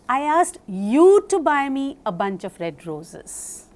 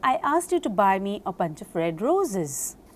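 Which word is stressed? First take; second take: red; roses. First: The stress is on red. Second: The stress is on roses.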